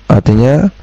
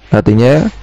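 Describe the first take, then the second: The two takes are said the same way.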